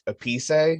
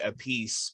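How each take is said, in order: First: The name is said with an Italian pronunciation. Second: The name is said like English 'a piece'. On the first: This is the name's original pronunciation. "which is the proper Italian pronunciation" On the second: This version is easier for English speakers. "he goes by [name] because he was the drummer for [name]"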